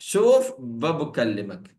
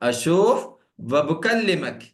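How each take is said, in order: First: The opening 'a' vowel is dropped before shoof. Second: The opening 'a' vowel is said before shoof.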